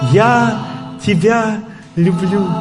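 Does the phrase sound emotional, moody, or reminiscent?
emotional. It is said with strong emotion. The feeling is expressed as raw emotion. "Звук эмоций"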